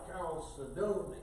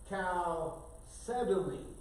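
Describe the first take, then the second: First: The stress falls near the end of the word. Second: The stress falls on the second syllable. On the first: "I put the accent on the D O N Y" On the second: "you put it on the second syllable"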